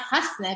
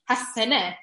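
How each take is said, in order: First: The s and n are said together, no vowel. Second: A short vowel is heard between s and n. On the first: The speaker calls it wrong. "it's not hasne" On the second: The speaker calls it right.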